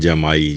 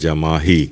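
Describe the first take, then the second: First: The word has no h sound inside. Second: The word has an h sound inside. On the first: The speaker calls it wrong. "बोलते भी हैं जमाई" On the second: The speaker calls it right. "असल लफ्ज़ है जमाही"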